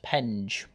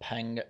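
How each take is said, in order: First: The word ends with a soft j sound. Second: The word ends with a hard g sound. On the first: The speaker calls it right. "It's actually pronounced Penge" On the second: The speaker calls it wrong. "that's not how you pronounce it"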